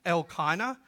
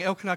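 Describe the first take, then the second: First: Elkanah said "EL-ky-nuh"; corrected pronunciation. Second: Elkanah said "EL-kuh-nuh"; mistaken pronunciation. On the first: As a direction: give the El of Elkanah weight, then a long "kai". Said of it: "you always put the emphasis on the L part". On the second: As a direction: say Elkanah with a weak "kuh" middle. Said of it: "that's the way I thought it was". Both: Shown as a demonstration.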